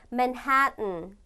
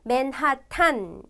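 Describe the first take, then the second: First: The last syllable has a reduced, weak vowel. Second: The last syllable has a full open 'a' vowel. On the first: The speaker calls it right. "실은 발음을 맨하튼" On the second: The speaker calls it wrong. "이렇게 국어로는 쓰지만"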